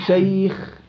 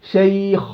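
First: "شيخ" with a lighter final khaa after ay; relative tafkhim. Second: "شيخ" with a thick, rounded final khaa; over-heavy khaa. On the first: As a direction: keep the خ in "شيخ" unrounded. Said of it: "حالات تفخيم النسبي". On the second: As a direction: weigh down the خ ending "شيخ". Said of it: "لا". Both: Shown as a demonstration.

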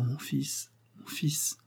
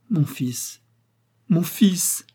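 First: Breathless whisper, barely voiced. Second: Cried out. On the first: Dying mother to her long-lost son, whispered. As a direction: whisper it as if you can't believe it. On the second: Acted. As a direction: call out to him, overflowing. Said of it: "s'écria-t-elle".

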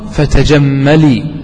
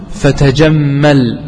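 First: "فتجملي" drawn out slowly to a long final -lee; rhyming kasra ending. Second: "فتجمل" slow, closing on a bare l; sukun ending. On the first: Teacher reciting the verse for its rhyme, "فتجملي" ending in long -lee. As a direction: stretch the kasra on the lam closing "فتجملي". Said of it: "وتحركت اللام بالكسر لماذا؟". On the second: Teacher repeating the verse to students, "فتجمل" ending on silent lam. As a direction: stop on the lam of "فتجمل" with no vowel after it. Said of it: "تجمل هذا فعل أمر". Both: Shown as a demonstration.

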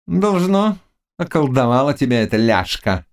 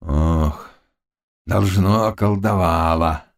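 First: High witch's grumble; grumbling witch. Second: Plaintive. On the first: Witch grumbling about the girl's spell, high-pitched. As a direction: grumble it from a high start, falling. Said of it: "проворчала Гарпина". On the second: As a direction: sigh it out pitifully. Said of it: "жалобно ответил он". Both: A narrator's reading.

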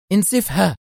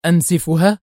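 First: Decisive order, pitched up; firm, stern. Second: Startled, questioning echo; astonished. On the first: Boss orders her man to destroy helicopter, firm. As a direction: give the command with total firmness. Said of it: "قالت بكل الحزم والصرامة". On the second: Henchman echoes boss's order, astonished. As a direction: repeat the order in disbelief. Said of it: "كرر الرجل في دهشة". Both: A narrator's reading.

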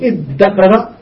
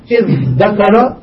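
First: إذ ذكر said iddakara, the dh turned into a doubled d; merged double d. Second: إذ ذكر with dh and d both clearly sounded; separate dh and d. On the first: Teacher showing students إذ ذكر merged into doubled d. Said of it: "بإبدال الذال دالا والإضغام". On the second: Teacher showing students إذ ذكر with both letters sounded. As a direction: keep the dh of إذ ذكر apart from the d. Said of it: "بالإظهار فيهما". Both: Shown as a demonstration.

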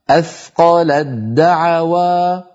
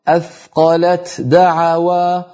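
First: Slow athqalad-da'awa for أثقلت دعوى; ta merged into dal. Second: Slow athqalat da'awa for أثقلت دعوى, t then d; unmerged, effortful. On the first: Teacher showing the easier way, doubled d. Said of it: "لو حولنا التاء إلى دال". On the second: Teacher showing the heaviness, separate t and d. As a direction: keep the ت of أثقلت apart from دعوى. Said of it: "فيها ثقل لأن اللسان". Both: Shown as a demonstration.

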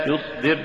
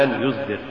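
First: Said in the usual way. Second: "يصدر" with buzzing z for the sad; sad becomes zay. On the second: Shown as a demonstration. Teacher showing an error, "يصدر" said with zay for sad. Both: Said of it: "استبدال الصاد بالزاي".

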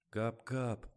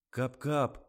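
First: Cold, curt correction; icy voice. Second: Offended, indignant correction. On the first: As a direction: say it icily. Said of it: "ледяным голосом поправил Жорик". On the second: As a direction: protest it, outraged. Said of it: "возмутился Жорик". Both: A narrator's reading.

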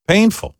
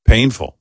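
First: Painful pitched high and rising; high whiny painful. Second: Said in the usual way. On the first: Shown as a demonstration. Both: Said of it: "said twice, low then high".

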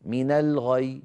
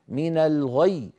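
First: من الغي with a weak single ي at the end; wrong stop. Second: من الغي slow with a strongly pressed doubled ي; correct stop. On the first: Teacher showing students how not to stop. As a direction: drop the doubling on من الغي. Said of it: "ما يصح". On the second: Teacher giving the correct way after the wrong one. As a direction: press the final ي of من الغي firmly. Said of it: "هكذا قرأناه". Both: Shown as a demonstration.

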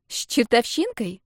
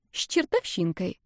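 First: С чертовщинкой slowly echoed, pitched higher; sceptical echo. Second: С чертовщинкой dropped softly, falling at the end; sly teasing. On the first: Nadya questions her friend's description, sceptical echo. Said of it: "подняла тонкие чёрные брови Надя". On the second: Marta teases her friend about a passer-by, slyly. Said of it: "лицо Марты приняло ехидное выражение". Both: A narrator's reading.

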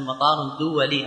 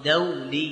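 First: دولي said as duwali, with u after the d; wrong form. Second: دولي said as dawli, with a before the w; correct form. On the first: Retold or imitated. Teacher quoting how people wrongly say دولي as duwali. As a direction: quote the common mistake, دولي as duwali. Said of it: "لأن نسمع الناس يقول". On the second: Shown as a demonstration. Teacher correcting students, دولي pronounced dawli. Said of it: "هذا غلط، يقول".

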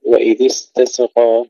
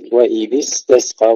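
First: استسقى with a little vowel after the s; wrongly bounced sin. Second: استسقى with a still, unvowelled s; no echo after the س in استسقى; sin without bounce. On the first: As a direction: mistaken recitation of استسقى, sin echoed as "se". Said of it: "ولا نقول". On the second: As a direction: recite استسقى letting the second س hiss straight into the q. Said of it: "لا نقلقل السين". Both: Shown as a demonstration.

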